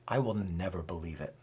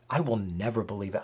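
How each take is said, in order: First: Low, soft and stubborn, a defeated refusal; lower, softer bitter vow. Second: Quick, clipped bitter refusal; a touch of a resentful scoff. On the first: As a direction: drop the voice and close the door on it. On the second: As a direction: rattle it off like a stubborn man. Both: Shown as a demonstration. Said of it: "I read that with a tone".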